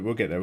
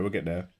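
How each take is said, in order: First: Said in the usual way. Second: Quiet repeat. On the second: Real, not acted. Repeat, dropped to self-talk.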